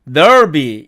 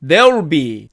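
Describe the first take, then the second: First: "there'll be" as "derb-i", vowel dulled; weakened there'll be. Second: "there will be" squeezed to "derl-bi"; contracted there'll be. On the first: Teacher showing the weaker alternative, reduced. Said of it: "소리가 약해지면". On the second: Teacher showing the first short form, contracted. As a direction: keep the vowel of "there will be", will shrunk to L. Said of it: "there will be는". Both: Shown as a demonstration.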